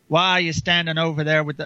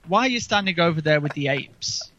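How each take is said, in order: First: It is said in a redneck accent. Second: It is said in a posh accent.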